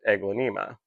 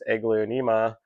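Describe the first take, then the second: First: The word has fewer hard E sounds. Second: The word has two hard E sounds. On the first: The speaker calls it right. "the other way might be a little bit more correct" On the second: The speaker calls it wrong. "I've got the two hard E sounds in there"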